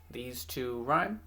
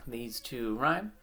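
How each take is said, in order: Both takes have the same delivery.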